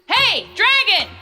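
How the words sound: It is shouted very loudly.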